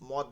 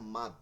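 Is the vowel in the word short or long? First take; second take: short; long. First: The vowel is short, like 'mod'. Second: The vowel is long, like 'maad'. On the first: The speaker calls it wrong. "মদ না, অনেকে মদ বলেন" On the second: The speaker calls it right. "বলবেন হচ্ছে মাদ"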